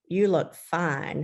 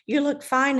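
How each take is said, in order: First: It sounds warm, playful and smiling. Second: It sounds quick, flat and dismissive. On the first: He thinks she looks lovely. "with a little twinkle in his eye and a little smile" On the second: He is not really impressed. "he gives me a quick glance and he goes"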